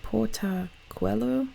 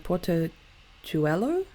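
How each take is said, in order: First: Portachuelo said slowly as "porta-kwello", higher pitched; trying another pronunciation. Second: Portachuelo drawn out with "chwello", rising at the end; tentative pronunciation. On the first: Host asking fans how to say it, tentative Portachuelo with "kw". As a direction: try Portachuelo with a "kw" for the "chu", questioningly. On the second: Host unsure of a Bolivian place name, tentative Portachuelo with "ch". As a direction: sound out Portachuelo with a "ch", questioningly. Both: Real, not acted. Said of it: "how would you say that".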